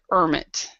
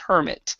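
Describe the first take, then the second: First: The word begins without an h sound. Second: The word begins with a clear h sound. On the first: This is a small regional pronunciation. "there might be an area of England that might pronounce it hermit" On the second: This is the usual pronunciation. "usually it's hermit"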